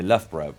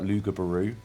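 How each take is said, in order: First: The name is said in its usual short form. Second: The name is said sounding out every spelled letter. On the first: "I live near Loughborough" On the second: "but it's spelt Lugabaroo"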